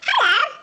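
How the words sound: It is said in a high, small mouse-like voice.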